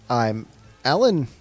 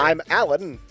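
First: It is said in his normal voice. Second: It is said in an old-timey radio voice.

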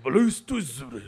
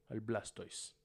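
First: It is said in a mock-Japanese way. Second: It is said in a plain Spanish way.

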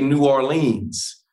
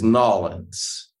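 First: The name is said an older local way. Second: The name is squeezed into a short two-syllable form. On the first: Some older-style locals say it this way. "some old school people in New Orleans who even say" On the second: People from out of state may say it this way. "what people don't say is Nawlins. That's just not something that the locals say"

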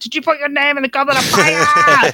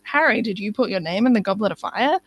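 First: It is shouted loudly and over the top. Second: It is asked quietly and calmly.

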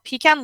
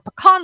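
First: It is said in a non-local, non-Texan way. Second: It is said in the local Texan way.

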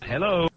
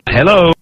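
First: It is said more softly. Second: It is said very loudly.

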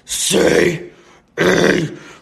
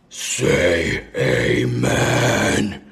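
First: It is said more loudly. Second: It is said more quietly.

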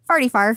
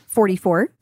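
First: The number is said in the local way. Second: The number is said in the standard way.

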